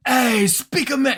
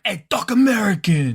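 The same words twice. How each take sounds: First: High, drawn-out New York Italian voice; New York Italian accent. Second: High, punchy New York Italian voice; New York Italian accent. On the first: Flipping the phrase to test it, New York Italian accent. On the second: Showing what he'd really say, New York Italian accent. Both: Acted. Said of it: "New York Italian kind of guy".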